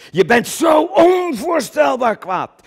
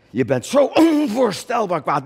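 First: Furious shout. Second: Angry declaration. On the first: Describing Coen's rage. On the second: Repeats rage line. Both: Acted.

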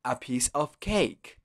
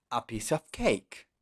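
First: "a piece of cake" slowed down, word by word; slower repeat. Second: Said in the usual way. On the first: Shown as a demonstration. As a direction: repeat it slowly for the learner. ("a piece of cake" más despacio) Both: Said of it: "Otra vez".

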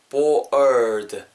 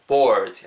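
First: "bored" drawn out, bo-errd; stretched er sound. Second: "bored" in one shorter piece with an R-coloured er; blended er sound. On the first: Teacher breaking down "bored", slow er sound. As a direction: stretch "bored" to expose the er before the d. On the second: Teacher modelling "bored" whole, blended er sound. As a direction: say "bored" joined up, er into a final d. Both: Shown as a demonstration. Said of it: "약간 er 사운드".

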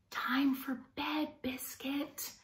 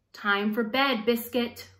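First: Soft, slow bedtime whisper. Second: Said in the usual way. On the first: Acted. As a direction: hush it as if the puppy is almost asleep. Bedtime call to sleepy puppy.

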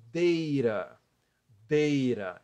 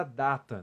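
First: Deira, the T of data tapped as R; American pronunciation with R. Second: Data said as in Portuguese, DA-ta; pronúncia portuguesa. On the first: Shown as a demonstration. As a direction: say deira slowly and firmly, DEI-ra. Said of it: "estou pronunciando com som de R". (deira com som de R, à americana) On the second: Acted. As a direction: say data with open A and clear T. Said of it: "a pronúncia é". (data com pronúncia do português)

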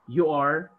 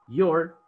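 First: Said in the usual way. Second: "your" as one contracted syllable; forma abreviada. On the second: Shown as a demonstration. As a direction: join you and are as "your". ("your" contraído en una sílaba)

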